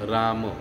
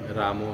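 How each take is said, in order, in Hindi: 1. शब्द के अंत में कोई अतिरिक्त स्वर नहीं जुड़ा है। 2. शब्द के अंत में अतिरिक्त 'o' स्वर जुड़ा है। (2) "रामो नहीं"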